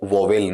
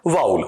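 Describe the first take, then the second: First: It starts with an 'o' sound, ending in 'vel'. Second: It starts with an 'ow' sound, ending in 'ul'. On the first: The speaker calls it wrong. "वोवेल नहीं होता है" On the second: The speaker calls it right. "वाउल होता है।"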